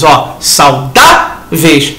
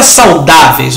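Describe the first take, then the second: First: "saudáveis" drawn out very slowly, syllable by syllable; slow "saudáveis" so the students hear it clearly; stretched out slowly. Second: Said in the usual way. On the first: Shown as a demonstration. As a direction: drag out "saudáveis". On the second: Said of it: "Na palavra saudáveis".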